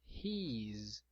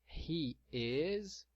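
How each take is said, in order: First: Words merged into one short syllable. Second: Two separate words, each fully pronounced. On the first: "Na forma contraída" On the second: "na forma extensa"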